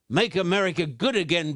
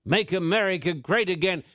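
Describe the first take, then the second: First: "good" leaned on to contrast with great; stress on good. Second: Said in the usual way. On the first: Shown as a demonstration. Preacher correcting the slogan, stress on "good". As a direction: hit the word "good". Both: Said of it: "but I say to you".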